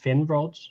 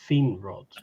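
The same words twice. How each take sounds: First: The first vowel is a short 'i' sound. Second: The first vowel is a long 'ee' sound. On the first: "it's not Finrod" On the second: "but Finrod"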